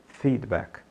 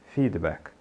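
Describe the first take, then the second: No difference in how they are said.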